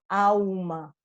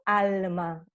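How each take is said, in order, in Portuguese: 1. O L no fim da sílaba é pronunciado como U. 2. O L no fim da sílaba é pronunciado como L. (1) "eu tenho alma" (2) "Eu não tenho alma"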